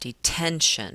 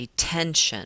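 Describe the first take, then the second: First: The stress is on the middle syllable. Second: The same.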